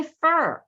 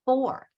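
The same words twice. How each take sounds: First: "for" weakened to sound like fur; reduced "fur". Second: "for" with its full open or vowel; full-form "for". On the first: Teacher showing everyday speech, "for" reduced to fur. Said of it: "a lot of times instead of". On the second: Teacher contrasting with the reduced form, full "for". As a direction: say "for" in its careful dictionary form. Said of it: "instead of". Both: Shown as a demonstration.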